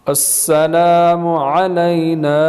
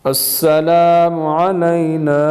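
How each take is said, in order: The two takes are said the same way.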